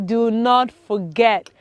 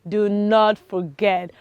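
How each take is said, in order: Both takes have the same delivery.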